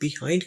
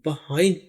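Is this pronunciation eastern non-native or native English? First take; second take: eastern non-native; native English. First: It is said with a non-native eastern pronunciation. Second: It is said with a native English pronunciation. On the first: The speaker calls it wrong. "Eastern country के लोग जहाँ पर English नहीं बोली जाती वहाँ पर इसे बिहाइंड कहा जाता है" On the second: The speaker calls it right. "अंग्रेजों के मुल्क में इसको बिहाइंड पढ़ा जाता है"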